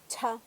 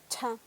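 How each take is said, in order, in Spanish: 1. El sonido ch tiene un soplo de aire fuerte. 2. El sonido ch tiene un soplo de aire fuerte.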